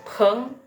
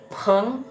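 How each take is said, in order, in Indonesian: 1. P-nya ada hembusan udara yang kuat. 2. P-nya ada hembusan udara yang kuat.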